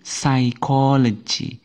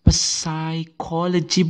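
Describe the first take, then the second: First: The word begins with an s sound, p silent. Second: The word begins with an audible p sound. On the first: The speaker calls it right. "tetapi psychology" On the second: The speaker calls it wrong. "bukan psychology"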